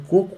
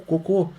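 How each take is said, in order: First: "Coco" stressed up front, CO-co; "Coco" with strong first o, weak ending; stress on first syllable. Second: "cocô" stressed at the end, co-CÔ; "cocô" with weak first o, strong closing ô; stress on last syllable. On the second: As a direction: punch the final syllable of "cocô". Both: Shown as a demonstration. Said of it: "pronúncias sutis podem mudar totalmente".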